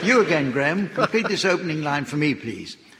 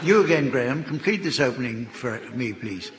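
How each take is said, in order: First: It is said with more enthusiasm. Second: It is said flatly, without enthusiasm.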